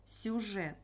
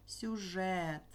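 First: Said in the usual way. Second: Сюжет with the final е stressed and held long. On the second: Shown as a demonstration. Teacher showing pupils where stress falls, stressed Е. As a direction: lean on the е in Сюжет and stretch it. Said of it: "Е наголос".

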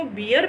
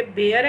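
First: बियर with an "ee" vowel, like beer; mispronounced bear. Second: बेयर with an "ay" vowel, not "ee"; correct bear pronunciation. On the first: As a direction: say bear wrongly as बियर, rhyming with "here". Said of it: "तो ये totally गलत है". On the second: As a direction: say बेयर to rhyme with "air". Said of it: "ये भी बेयर ही होता है". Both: Shown as a demonstration.

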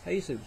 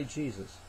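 First: "Jesus" as HAY-zoos; Latin American pronunciation. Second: Said in the usual way. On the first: Shown as a demonstration. Preacher explains how they pronounce the spelling, Latin American pronunciation. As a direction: say "Jesus" with H for J and a long oo ending. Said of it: "That's how they pronounce J E S U S". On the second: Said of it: "And we say Jesus".

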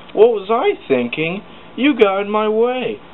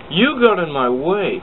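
First: High, loud snapping retort. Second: High, loud accusing cry; angry cry. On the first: James blaming Thomas after the crash, snapping high and loud. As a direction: throw the blame back hard. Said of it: "snapped James". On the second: James arguing with Thomas again, crying out high and loud. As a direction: point the finger. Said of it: "cried James". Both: Acted.

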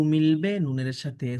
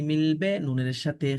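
Both takes have the same delivery.

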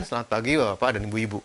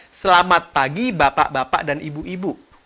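First: Low, soft, hurried mumble; bergumam. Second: Open-mouthed, clearly articulated greeting; artikulasi jelas. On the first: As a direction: mumble the greeting with lips barely moving. (bergumam pelan, rendah, tidak jelas) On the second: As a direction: give each syllable its full sound. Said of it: "mulutnya dibuka". (mulut dibuka, pelafalan jelas) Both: Shown as a demonstration.

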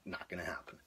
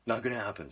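First: Breathy whispered resignation; whispering. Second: Said in the usual way. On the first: Retold or imitated. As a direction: whisper it to yourself, giving up. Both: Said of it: "I'm like".

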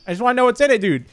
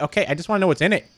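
First: Pushier, leaning on "in"; insistent repeat. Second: Said in the usual way. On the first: Real, not acted. Player arguing with the game, insistent and exasperated. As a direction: say it again like you mean it.

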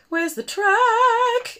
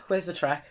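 First: High, slow sing-song Where's the track; Anna voice. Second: Said in the usual way. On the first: Pretend. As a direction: stretch track high like an excited princess. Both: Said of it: "I'm being method".

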